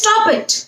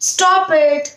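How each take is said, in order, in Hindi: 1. यह तीखे, गुस्से वाले लहजे में कहा गया है। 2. यह नरम, प्यार भरे लहजे में कहा गया है। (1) "अगर गुस्से से बोलना है" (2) "प्यार से भी बोला"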